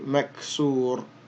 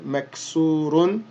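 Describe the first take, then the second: First: The word ends without an -un sound. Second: The word ends with an -un sound. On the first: "and then drop the dhammatan, uh, and you would just say maksur" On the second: "and then the ra with the dhammatan"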